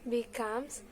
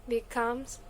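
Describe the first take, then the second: The two takes are said the same way.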